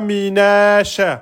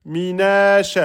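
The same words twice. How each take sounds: Both takes have the same delivery.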